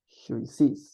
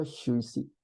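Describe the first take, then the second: First: "sis" with the s sounded at the end; the written spelling, final s pronounced; spelled form, final s said. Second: "yo y si" ending on the vowel, no final s; the way it is really pronounced; correct spoken form. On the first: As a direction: read "Yo y sis" as written, s audible. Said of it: "Se pronuncia yo y si". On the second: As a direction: drop the s, say it "yo y si". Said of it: "Se pronuncia". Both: Shown as a demonstration.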